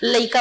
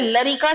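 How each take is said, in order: First: The r sound is dropped from the middle. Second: The r sound is pronounced in the middle. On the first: This is the Chhattisgarhi form of the word. "ये र sound गायब हो जाता है" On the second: This is the Bhojpuri form of the word. "Bihari में लरिका बोलते हैं"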